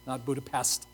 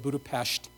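First: The last syllable ends with an s sound. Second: The last syllable ends with an sh sound. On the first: The speaker calls it wrong. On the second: The speaker calls it right. "that's how you say it, ... It's Pest. I don't have a lisp"

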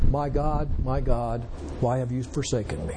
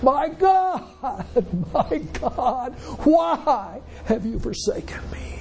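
First: It is said in a plain, calm reading voice. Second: It is said in an anguished, agonized voice. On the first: The speaker calls it wrong. "sometimes we read it" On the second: The speaker calls it right. "there was agony in his voice"

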